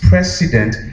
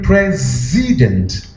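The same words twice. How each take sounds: First: The middle consonant is a hissing s sound. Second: The middle consonant is a buzzing z sound. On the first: The speaker calls it wrong. "The word you say is president" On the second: The speaker calls it right. "There is no s, is th"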